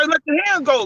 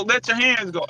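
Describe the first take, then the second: First: Put-on "Let your hands go" quoted higher as the old man's instruction; quoting the coach. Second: Said in the usual way. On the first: Old coach instructing his fighter in the corner, quoted higher. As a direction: relay the coach's corner order. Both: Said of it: "If he say".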